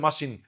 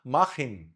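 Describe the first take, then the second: First: ماشين with sh for the German ch; mistaken SH. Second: ماخن with a throaty kh in the middle. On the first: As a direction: misread the ch in ماشين as sh. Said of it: "هتقول لي ماشين". (نطق ماشين غلط بالشين) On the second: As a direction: correct it to ماخن, ch as Arabic kha. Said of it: "اسمها ماخن". (نطق ماخن بالخاء) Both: Shown as a demonstration.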